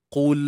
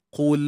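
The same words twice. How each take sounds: No difference in how they are said.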